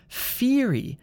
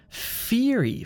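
First: The word begins with an f sound. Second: The word begins with an f sound.

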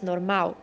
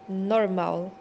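First: The final L sounds like a u vowel. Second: The word ends in a clear L sound. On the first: The speaker calls it wrong. "em português, falamos normal" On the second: The speaker calls it right. "em inglês se pronuncia a letra L"

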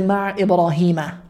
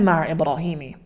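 First: The name ends with an 'a' vowel. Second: The name ends with an 'i' vowel. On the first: The speaker calls it right. "We say ma'a Ibrahima" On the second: The speaker calls it wrong. "We don't say ma'a Ibrahimi"

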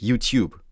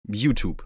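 First: It is pronounced the original English way. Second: It is pronounced the Germanized way. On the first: This is the form the speaker avoids. "und nicht YouTube" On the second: This is the form that is easier to say. "Ich sag YouTube ... Es kommt einfacher über die Lippen"

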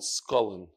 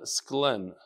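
First: A vowel separates the 'sk' from the 'l'. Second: The 'sk' runs straight into the 'l'. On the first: The speaker calls it wrong. "They don't call it Skolin" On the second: The speaker calls it right. "Not Stalin, Sklen"

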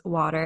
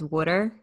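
First: It is said in a standard accent. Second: It is said in a New Jersey accent.

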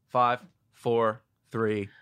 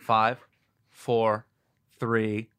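First: The count is said fast. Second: The count is said slowly.

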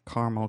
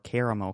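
First: The word is said with two syllables. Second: The word is said with all three syllables.

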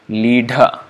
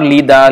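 First: The middle consonant is a breathy dh. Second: The middle consonant is a plain d. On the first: The speaker calls it right. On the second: The speaker calls it wrong. "it's not Lida"

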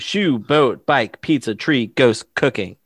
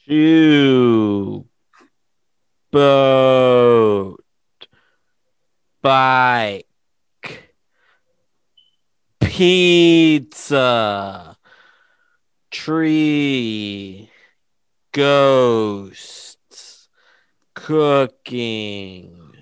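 First: The list is said fast. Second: The list is said slowly.

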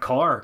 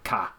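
First: Irish accent, final R is pronounced. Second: Australian accent, final R is dropped. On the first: "Irish people do it as well... that's a bad Irish accent" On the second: "We don't say the letter R at the end of the word car. We go car"

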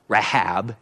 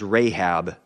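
First: The name is said in an unfamiliar way. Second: The name is said in the familiar way. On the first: It names a sea monster. "I intentionally pronounced it differently" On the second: It names the woman who helped the spies. "what we would typically pronounce as Rahab"

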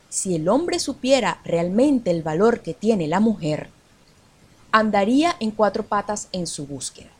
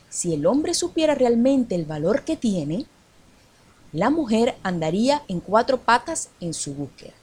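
First: There is a pause after the word mujer. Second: There is a pause after the word tiene.

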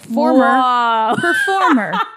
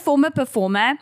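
First: It is said in an American accent. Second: It is said in the speaker's usual accent. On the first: "that your American accent? Yeah" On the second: "Go back to you"

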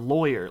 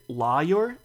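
First: The first syllable sounds like 'loy'. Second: The first syllable sounds like 'law'. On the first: "or loy, like boy" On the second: "like law"

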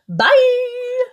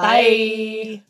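First: It is said brightly with lively energy. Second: It is said flatly with little energy.

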